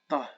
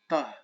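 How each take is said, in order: The two takes are said the same way.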